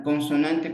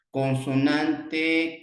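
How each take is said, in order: First: Said in the usual way. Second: Drawn out, slow: con-so-nan-te; teacher spelling out "Consonante" slowly; slow syllable demo. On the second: Shown as a demonstration. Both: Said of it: "consonante vocal".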